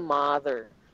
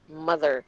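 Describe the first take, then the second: First: The first vowel does not sound like butter's. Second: The first vowel sounds like the u in butter. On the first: The speaker calls it wrong. "Hindi siya mother" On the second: The speaker calls it right. "it's the same sound as in brother. It rhymes with butter"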